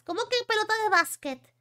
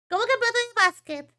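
First: Said in the usual way. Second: Indignant repeat. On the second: Real, not acted. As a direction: repeat it in mock outrage.

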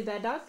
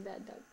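First: Said in the usual way. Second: Whispered softly, no voice. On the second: Shown as a demonstration. Mother whispering the phrase to her toddler. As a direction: breathe the words to the baby.

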